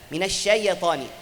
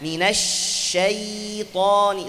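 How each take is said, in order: First: The sh sound is rushed and cut short. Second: The sh sound flows on and is drawn out. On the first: The speaker calls it wrong. "Karena kita baca Al-Quran yang buru-buru, cepat. Cepat tarik lidah" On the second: The speaker calls it right. "ada sifat rakhawah, suaranya jalan"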